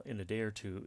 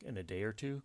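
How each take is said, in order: First: Said in the usual way. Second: "In a day or two?" read with a rising question tune on "two"; "In a day or two?" as a genuine asked question, rising at the end. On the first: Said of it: "is a grammatically incomplete sentence". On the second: Shown as a demonstration. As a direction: lift "two" up like a real question. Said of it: "Question mark".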